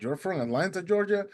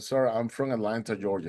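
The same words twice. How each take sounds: First: Disbelieving question, rising high on Georgia; retold surprise. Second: Said in the usual way. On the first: Boatman learns swimmer is from Atlanta, astonished question. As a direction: echo it back in acted amazement.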